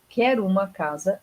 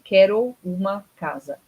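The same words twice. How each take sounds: First: The words run together, with sounds joined. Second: Each word is pronounced fully and separately. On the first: "onde que eu juntei os sons aqui?" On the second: "Eu não falei"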